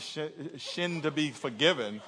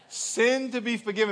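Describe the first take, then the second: First: The word begins with a sh sound. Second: The word begins with a clear s sound. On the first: The speaker calls it wrong. "Not in order for shin to be forgiven" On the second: The speaker calls it right. "pronounce that S"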